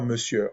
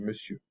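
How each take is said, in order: First: The final R sound is pronounced. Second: The final R sound is silent. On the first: The speaker calls it wrong. "on dit pas monsieur" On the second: The speaker calls it right. "R ne se fait pas entendre. On dit, ... on dit monsieur"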